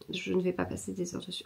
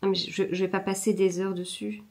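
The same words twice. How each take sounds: First: Much softer, half under her breath; muttered to herself. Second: Said in the usual way. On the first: Real, not acted. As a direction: repeat it quietly as a resolution to yourself. Repeats the line to herself.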